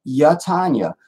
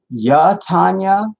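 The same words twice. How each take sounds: First: "Yeah, Tanya" as yah-TAHN-ya, falling at the end; settled Ya-Tanya. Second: "Yeah, Tanya" as a slow, higher yah-TAHN-ya, rising; questioning Ya-Tanya. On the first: Repeating a viewer's name, "Yeah, Tanya" as a falling yah-TAHN-ya. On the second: Checking a viewer's name, "Yeah, Tanya" as a questioning yah-TAHN-ya. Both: Shown as a demonstration. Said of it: "ain't no ya".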